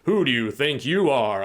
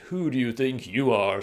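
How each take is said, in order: First: It sounds angry and threatening. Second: It sounds snooty and condescending.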